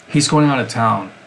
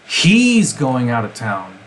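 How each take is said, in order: First: It is said with neutral, unmarked stress. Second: The stress is on "he's".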